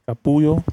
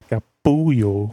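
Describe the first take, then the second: First: It is said at normal speed. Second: It is said slowly.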